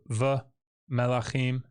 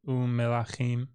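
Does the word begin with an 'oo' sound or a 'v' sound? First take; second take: v; oo. First: The word begins with a 'v' sound. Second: The word begins with an 'oo' sound. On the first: The speaker calls it wrong. "instead of v melachim" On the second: The speaker calls it right. "get um melachim"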